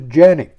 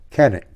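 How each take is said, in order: First: The name begins with a J sound. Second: The name begins with a hard K sound. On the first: The speaker calls it right. "the proper Turkish pronunciation" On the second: The speaker calls it wrong. "pronouncing the name of this pistol incorrectly"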